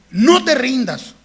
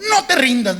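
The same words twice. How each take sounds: First: "No te rindas" slow and loud, leaning on "No"; emphatic drawn-out "No te rindas"; firm encouragement. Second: "No te rindas" said through a laugh; amused "No te rindas"; laughing encouragement. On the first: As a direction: urge the kid firmly not to quit. Repeated urging of child. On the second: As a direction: cheer the kid on while chuckling. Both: Retold or imitated.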